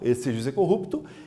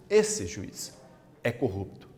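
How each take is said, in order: First: It is said straight through without pauses. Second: 'Juiz' is set off by pauses, addressing the judge.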